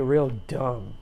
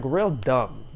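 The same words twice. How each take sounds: First: Said in the usual way. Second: "real dumb" stretched out slowly; emphatic repeat. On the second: Real, not acted.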